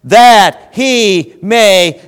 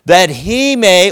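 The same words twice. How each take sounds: First: "that he may" stretched very slowly, loud and high; very drawn out. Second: "That he may" dragged out slowly and loud; slow emphasis. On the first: Preacher building suspense over scripture, very slow and loud. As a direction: hold "that he may" long for suspense. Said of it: "watch this, watch this". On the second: Preacher reading scripture to the church, slow and emphatic. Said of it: "oh, watch this". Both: Shown as a demonstration.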